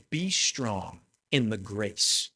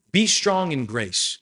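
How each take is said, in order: First: Soft and slow, as Paul writing tenderly to Timothy; slower, hushed encouragement to a young pastor; gentle Paul quote. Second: Each word of Be strong in grace pressed out slowly and firmly; emphatic repeat. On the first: Retold or imitated. Preacher voicing Paul's letter to Timothy, hushed and slow. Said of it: "do you hear that?". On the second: Shown as a demonstration. Preacher driving Paul's words home to the church, slow and emphatic. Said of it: "You see, do you hear that?".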